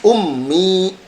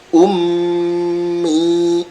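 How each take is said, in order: First: The doubled nasal is passed over without holding. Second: The doubled nasal is pressed and held, then released. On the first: The speaker calls it wrong. "Jadi tidak ummi ya" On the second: The speaker calls it right. "ada tekanan dulu baru dilepas"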